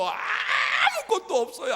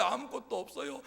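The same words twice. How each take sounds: First: 아무것도 없어요를 아주 높고 크게 느리게 외치기; 느리게 늘여 외치는 하소연; 투덜대며 외침. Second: 웃음 섞인 투덜거림. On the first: (아무것도 없다고 크게 외치는 모세) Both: Acted. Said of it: "라고 투덜거리는 모세의".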